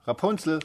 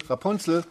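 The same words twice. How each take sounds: First: High, loud call that falls at the end. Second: The second "Rapunzel" high and loud, falling at the end; calling again. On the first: The prince calling up to the tower, a high loud call. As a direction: call her name up the tower. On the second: The prince calling up to the tower again, a high loud "Rapunzel". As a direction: call "Rapunzel" up once more, just as high. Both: Acted. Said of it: "als der Königssohn kam und rief".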